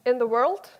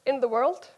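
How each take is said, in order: Both takes have the same delivery.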